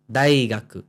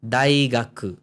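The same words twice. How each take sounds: The two takes are said the same way.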